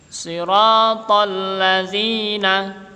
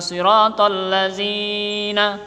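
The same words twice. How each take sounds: First: The long vowel is held out longer. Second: The long vowel is cut short. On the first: The speaker calls it right. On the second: The speaker calls it wrong. "bukan siratal lazina"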